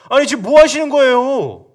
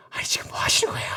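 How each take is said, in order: First: Loud, high protest at the leader; loud outburst. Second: Hushed whisper of protest. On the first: Soldiers loudly protesting to David. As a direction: blurt it out loud in shock. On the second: Soldiers whispering their protest to David. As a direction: whisper it so Saul won't hear. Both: Shown as a demonstration. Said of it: "이렇게 말 못했겠죠, 크게는".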